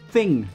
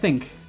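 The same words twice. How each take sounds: First: The word ends with an ng sound. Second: The word ends with a k sound. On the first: The speaker calls it right. "Thing, not think" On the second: The speaker calls it wrong. "some people go, give me that thing"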